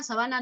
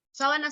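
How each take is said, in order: First: "sabana" leaning on the middle syllable; stress on BA of sabana. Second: "sábana" leaning on the first syllable; stress on SÁ of sábana. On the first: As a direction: hit BA in "sabana". (acento en BA de «sabana») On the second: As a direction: hit SÁ in "sábana". (acento inicial en SÁ de «sábana») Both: Shown as a demonstration. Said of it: "sábana y sabana sí".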